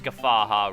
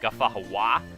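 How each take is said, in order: First: The name ends with a single 'ha' sound. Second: The name ends with an extra 'hawa' sound. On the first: The speaker calls it right. "it is Ghafaha Ruins" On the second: The speaker calls it wrong. "it sounds like Ghafahawa, and that's just not what it is"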